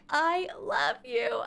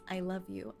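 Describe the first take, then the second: First: It is screamed loudly. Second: It is said at normal loudness, pleading.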